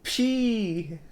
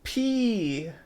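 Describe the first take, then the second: The two takes are said the same way.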